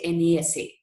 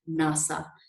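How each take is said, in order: First: Each letter is said separately. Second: It is said as a single word. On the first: The speaker calls it wrong. "You don't say NASA" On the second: The speaker calls it right. "It is called as NASA"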